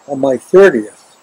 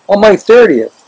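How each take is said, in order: First: Said in the usual way. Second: THIRTIETH hit higher and louder; higher, louder insistence on "thirtieth"; emphatic repeat. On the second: Retold or imitated. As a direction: repeat it with a loud, raised punch on "thirtieth".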